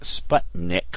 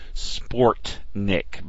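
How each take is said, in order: First: The first syllable sounds like 'sput'. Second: The first syllable sounds like 'sport'. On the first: This is the actual name of the satellite. The speaker calls it right. "which is the actual name of the Russian satellite" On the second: This is how the song's singers pronounce it. The speaker calls it wrong. "Sportnik, by the way, not Sputnik"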